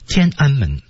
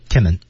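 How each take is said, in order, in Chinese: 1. 三个音节都完整地读出来。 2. 快速说的时候，中间那个音节会被省掉。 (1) "举个例子，天安门啊" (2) "我们北京就不叫天安门，叫天门啊，很快就能过去"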